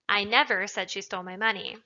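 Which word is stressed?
never. The word never carries the stress. It is a flat denial. "is just an emphatic denial of the fact"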